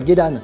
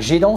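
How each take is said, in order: First: The first vowel is a plain Japanese e. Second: The first vowel is a French-style closed é. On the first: The speaker calls it right. "c'est pas gedan" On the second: The speaker calls it wrong. "un gedan barré se transforme souvent en gédan"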